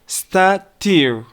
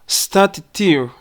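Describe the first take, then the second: First: The two T sounds merge into one. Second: Two separate T sounds are heard.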